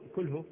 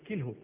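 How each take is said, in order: First: The first consonant is followed by a 'u' vowel. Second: The first consonant is followed by an 'i' vowel. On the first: The speaker calls it wrong. "مو كله" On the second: The speaker calls it right. "بكسر الكاف"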